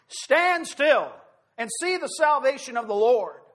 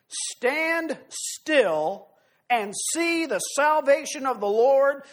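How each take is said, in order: First: "Stand still" punched higher and louder, then "see the salvation of the Lord" driven home; emphatic repeat. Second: "Stand still and see the salvation" drawn out very slowly, "salvation" lingered on; slow proclamation. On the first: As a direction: proclaim it to the congregation as a command. Preacher repeats verse with force. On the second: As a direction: savour each word, slow and solemn. Slow proclamation in scripture reading. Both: Acted.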